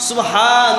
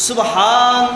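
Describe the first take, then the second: The two takes are said the same way.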